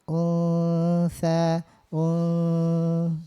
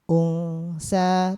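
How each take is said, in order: First: The nasal 'n' is held briefly. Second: The nasal 'n' is cut short. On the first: The speaker calls it right. "kalau ada ikhfa sedikit dulu ditahan" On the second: The speaker calls it wrong. "Jangan sebatas unsa"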